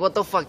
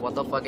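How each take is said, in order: First: Higher, louder indignant outburst; mock outraged. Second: Said in the usual way. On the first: Scolded for being late, higher louder indignant outburst. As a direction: blurt it out offended. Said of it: "And I'm like". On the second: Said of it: "I'm like".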